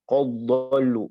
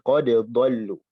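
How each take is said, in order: First: The d merges straight into the next word. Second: The d is released clearly before the next word. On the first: The speaker calls it wrong. "Bukan qad dhallu langsung ke dad" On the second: The speaker calls it right. "dibacanya qad dengan qalqalah"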